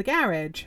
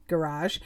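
First: "garage" stressed on the first syllable, GARR-idge; British pronunciation. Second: "garage" stressed on the second syllable, guh-RAHZH; American pronunciation. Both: Real, not acted. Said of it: "the garage or garage".

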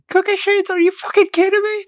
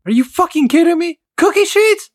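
First: Much higher shrieking outrage; mom's furious shriek. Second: Much higher, louder furious yell; mom's furious shriek. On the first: Son re-enacting his mom's cookie sheet scream. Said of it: "that made my mom lose it the most". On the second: A fed-up mom screaming at her sister. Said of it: "hearing my mom one morning just like". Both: Retold or imitated. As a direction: shriek it in disbelief.

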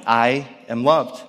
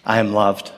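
First: Slow, tender repetition; slow, reflective. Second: A hint of a six-year-old's simple certainty; lightly voiced daughter, matter-of-fact; confident little girl. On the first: Shown as a demonstration. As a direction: savour each word, slowly. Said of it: "that was her reality". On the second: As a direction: say it plainly, like a sure child. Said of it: "without skipping a beat".

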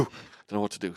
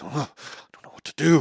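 First: Said in the usual way. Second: High, strained panic; mock despair, pitched up; whining in a panic; panicked teen. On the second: Panicked teen self retold.

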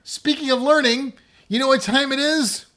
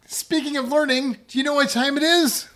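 First: High, loud segment intro; excited. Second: High, loud host intro, bigger; excited retake. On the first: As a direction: build up the next segment. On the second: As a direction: announce it with more energy. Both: Shown as a demonstration. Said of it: "Let's try that again".

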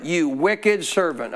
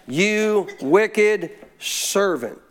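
First: Slow, weighty rebuke of the servant. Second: Very slow, drawn-out solemn rebuke; God speaking. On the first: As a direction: lean on "wicked" and stretch it out. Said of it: "Underline it". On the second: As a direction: stretch every word as God's judgment on "wicked". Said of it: "This is God talking". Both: Acted.

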